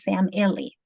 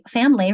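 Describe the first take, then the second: First: All three syllables are clearly pronounced. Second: The middle vowel is dropped, giving two syllables. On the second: "Many people say fam"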